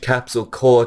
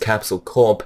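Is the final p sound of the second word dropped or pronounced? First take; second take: dropped; pronounced. First: The second word ends without a p sound. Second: The second word ends with a clear p sound. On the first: The speaker calls it wrong. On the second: The speaker calls it right.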